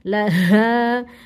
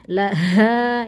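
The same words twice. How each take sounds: No difference in how they are said.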